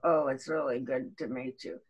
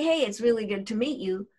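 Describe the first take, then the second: First: It sounds sour and unconvincing, like sucking lemons. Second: It sounds warm and genuinely pleased.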